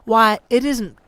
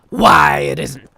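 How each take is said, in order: First: It is said in the plain reading voice. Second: It is said in a put-on character voice. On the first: The speaker calls it wrong. "I should have switched to Scrooge's voice here" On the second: The speaker calls it right. "so I need to do my Scrooge voice"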